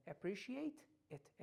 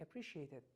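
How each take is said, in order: First: Slow "Appreciate", then a separate "it"; unlinked "Appreciate ... it" with a full t; separated words. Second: Fast, lower "Appreciate it" as one word; "Appreciate it" linked with a flapped t; quick linked pronunciation. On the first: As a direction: say "Appreciate it" slowly as two distinct words. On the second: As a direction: run "Appreciate it" together quickly. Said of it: "سریع". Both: Shown as a demonstration.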